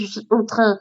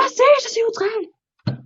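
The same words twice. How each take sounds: First: Said in the usual way. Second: High mock cry. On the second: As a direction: echo the outrage in a tiny high voice. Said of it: "Arrêtez de tous crier". (petit cri aigu, faussement outré)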